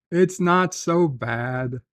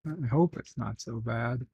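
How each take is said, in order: First: Stretched-out, slow reassurance; slow and drawn out; reassuring. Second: Soft, doubtful aside; hushed second thought; doubtful afterthought. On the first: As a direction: reassure them, drawing out each word. Reassures chatter, then doubts it. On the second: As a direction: back off quietly, less sure. Backs off the reassurance. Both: Real, not acted.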